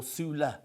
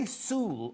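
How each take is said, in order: First: "Sula" said in two syllables, "soo-la"; Sula pronunciation. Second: "Sule" said as one long syllable, like "sool"; Sule pronunciation. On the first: Host checking a guest's surname, "Sula" as "soo-la". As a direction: end "Sula" on an open "la". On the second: Host checking a guest's surname, "Sule" as "sool". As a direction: say "Sule" without a final vowel, "sool". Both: Shown as a demonstration. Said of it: "do I say Sule or Sula".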